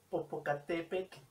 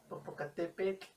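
The two takes are said the same way.

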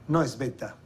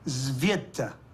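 First: The initial S is said without a buzzing sound. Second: The initial S is said with a buzzing sound. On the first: The speaker calls it wrong. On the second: The speaker calls it right.

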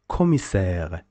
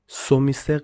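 First: The word begins with a k sound. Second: The word begins with an s sound. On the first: The speaker calls it right. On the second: The speaker calls it wrong.

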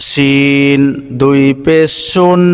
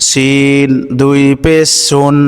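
No difference in how they are said.

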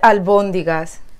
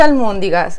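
First: It is said with a b sound before 'óndigas'. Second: It is said with an m sound before 'óndigas'. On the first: The speaker calls it right. "se dice albóndigas" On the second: The speaker calls it wrong. "no se dice almóndigas"

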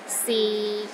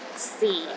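First: The pitch is low and steady. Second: The pitch is at its very lowest. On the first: It means is. "the sixth tone is low and steady, but not as low as the fourth tone" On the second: It means time. "The fourth tone is the lowest tone"

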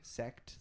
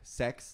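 First: The word ends with a clearly pronounced T. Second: The word ends without a clear T sound. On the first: The speaker calls it right. "I really have to pronounce the T" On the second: The speaker calls it wrong. "I'm not sure if it's the accent or some shit, but like sex"

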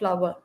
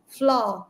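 First: The word is said with two syllables. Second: The word is said with one syllable. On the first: The speaker calls it wrong. "It's not flower" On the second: The speaker calls it right. "Fla, one syllable"

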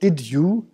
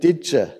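First: Both words are pronounced fully and separately. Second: The words merge quickly into one contracted form. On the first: "da sagen die Leute nicht did you" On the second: "sondern did you ... wir kontrahieren so diese Wörter und die werden dann schnell ausgesprochen"

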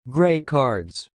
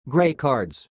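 First: It is said more slowly. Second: It is said at normal speed.

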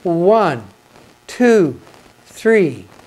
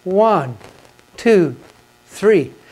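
Both takes have the same delivery.

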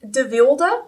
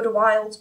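First: The name is pronounced with Dutch sounds. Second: The name is pronounced with English sounds. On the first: "de Wilde is what it would be if it were a Dutch name" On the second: "I'm just going to pronounce it in the English way"

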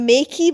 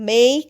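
First: The word ends with an extra 'ee' vowel. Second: The word ends cleanly on the 'k' sound. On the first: The speaker calls it wrong. "আমরা মেকই বলছি না" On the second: The speaker calls it right. "মেক বলছি"

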